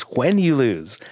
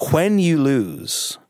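First: Said in the usual way. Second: Slow drawn-out tease. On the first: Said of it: "he goes". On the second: Retold or imitated. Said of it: "Jackson leaned over to him and he goes".

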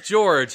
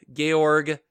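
First: "George" as jorj, one syllable; English pronunciation. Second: "Georg" with hard G at both ends; German-style name. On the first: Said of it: "His name is George". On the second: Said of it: "George without the last E". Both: Shown as a demonstration.

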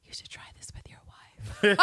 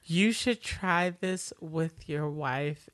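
First: Whispered taunt; intimate, needling whisper; close-up whisper. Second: Slow, voiced, measured delivery; unhurried imitation of a needling line; slow deliberate taunt. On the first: Retold or imitated. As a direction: whisper it right into his ear. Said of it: "she gets real close". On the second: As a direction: spell out the taunt slowly. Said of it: "you didn't deliver that right".

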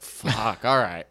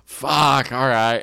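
First: A tripping comic answering the host; imitating himself on acid. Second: Louder, lazy stoned groan of a greeting; mock the stoned host arriving; imitating stoned Frank. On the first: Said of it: "on acid". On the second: Stoned host arriving at the green room, mock louder groan. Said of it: "So he shows up and he's like".

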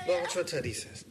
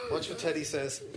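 First: High squeaky toy voice; talking plush toy. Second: Very high toy voice; talking plush toy. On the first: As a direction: voice the teddy for the dog. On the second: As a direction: speak as the teddy bear. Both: Acted. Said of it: "not the Teddy voice".

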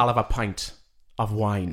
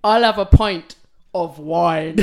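First: Put-on lightly done Welsh accent; a light Welsh accent, calm. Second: Slow, laughing attempt at Welsh; Welsh accent. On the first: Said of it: "Shall I do it?". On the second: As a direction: try a Welsh accent and crack up. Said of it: "I'm not gonna attempt the accent".

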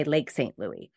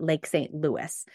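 First: Louis pronounced "LOO-ee"; usual local pronunciation. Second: Fully English Lake Saint Louis, Louis like Lewis; Louis pronounced "LOO-iss"; English pronunciation. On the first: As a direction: say Louis with a silent final s. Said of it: "We usually would say". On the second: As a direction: say Louis with the final s sounded. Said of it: "technically you could call it". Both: Shown as a demonstration.

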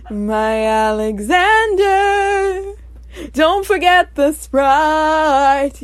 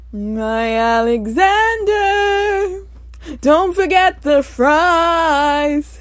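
First: Sung, slow, held theatrical notes; sung misheard lyric. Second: Sung, slow, sustained musical-theatre line; sung misheard lyric. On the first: Host showing another misheard version, singing. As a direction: sing "Sprite" long at the end. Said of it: "something else people are hearing". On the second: Host showing one misheard version, singing. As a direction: sing "fries" long at the end. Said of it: "One version of what some people are hearing". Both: Shown as a demonstration.

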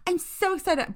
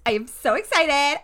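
First: High, empty imitation of enthusiasm; mock bland excitement. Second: High, loud, keen burst; real excitement. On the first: Mocking people who overuse the phrase, fake excitement. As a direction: mimic a rote, insincere gush. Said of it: "bland, like, monotone voice". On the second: Real, not acted. Co-host telling listeners her real feeling, excited. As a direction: say it like you truly mean it. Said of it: "I actually am really fucking excited".

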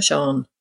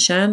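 First: "Shan" with an AH vowel, like "Shahn"; long-A Shan. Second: "Shan" with the short flat vowel of "can". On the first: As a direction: say "Shan" as SHAHN, open back A. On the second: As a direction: say "Shan" to rhyme with "man". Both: Shown as a demonstration. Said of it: "Is it Shan or Shan?".

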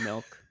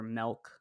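First: Said in the usual way. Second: "milk" with the vowel opened to the e of "elk"; regional pronunciation. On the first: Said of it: "instead of". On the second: Retold or imitated. Host imitating people from Washington, "milk" said as "melk". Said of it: "people from Washington who say".

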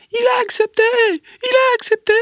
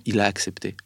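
First: Very high, loud mock yell of triumph; excited shout. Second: Said in the usual way. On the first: Embassy spokeswoman bursting out of the room, shrieking with glee. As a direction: shriek it out like a thrilled official running from the room. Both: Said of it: "elle sort en hurlant de la pièce".

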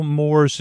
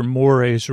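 First: "mores" said as one syllable, like "morz". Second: "mores" said in two syllables, "mor-ays". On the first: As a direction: say "mores" rhyming with "doors". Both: Shown as a demonstration. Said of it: "or whatever that word is".

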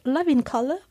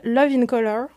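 First: French speaker doing a British accent. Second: Said in the usual way. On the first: Shown as a demonstration. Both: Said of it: "ou avec un accent british".

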